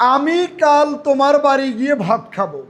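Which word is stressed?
আমি. The stress is on the word আমি. It is this person, not someone else, who will eat. "আমি এখানে আমিটার উপরে জোর দিয়েছি।"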